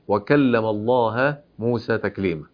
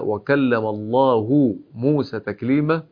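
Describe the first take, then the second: First: The word Allah ends with an 'a' vowel. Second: The word Allah ends with a 'u' vowel. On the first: Moses is the one who spoke to God. The speaker calls it wrong. "إذا من الذي تكلم؟ موسى" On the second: God is the one who spoke to Moses. The speaker calls it right. "قوله سبحانه وتعالى"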